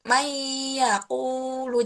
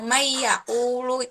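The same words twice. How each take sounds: First: A nasal hum is held before the next word. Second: It runs straight on with no held hum. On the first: The speaker calls it right. "bertahan dulu di ketika membaca nun dan ya" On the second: The speaker calls it wrong. "jadi nggak langsung"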